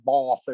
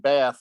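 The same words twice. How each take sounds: First: It is said with a British pronunciation. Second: It is said with an American pronunciation.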